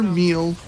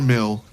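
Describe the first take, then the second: First: The vowel is a long ee sound. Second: The vowel is a short ih sound. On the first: "It is neither meal" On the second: "nor mill"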